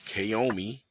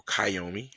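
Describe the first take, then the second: First: Kiyomi said "kay-OH-mee"; first pronunciation option. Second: Kiyomi said "kai-OH-mee"; alternative pronunciation. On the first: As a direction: open Kiyomi with a KAY sound. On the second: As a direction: open Kiyomi with KAI, rhyming with eye. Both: Shown as a demonstration. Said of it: "however you wanna say it".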